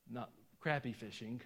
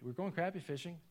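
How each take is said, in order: First: Crappie said "CROP-ee" with an "ah" vowel; crappie as "croppie". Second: Crappie said with a flat "a", like "crappy". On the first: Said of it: "You say crappie". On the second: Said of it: "We said crappie". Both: Shown as a demonstration.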